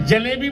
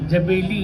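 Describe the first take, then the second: First: The l sound comes before the b sound. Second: The b sound comes before the l sound. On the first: The speaker calls it right. "जलेबी बोलना भी नहीं आया उनको" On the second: The speaker calls it wrong. "तो क्या बोलते जानते हो?"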